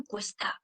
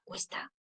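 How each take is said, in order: First: Said in the usual way. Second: Barely audible. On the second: Shown as a demonstration. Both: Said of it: "con poco volumen".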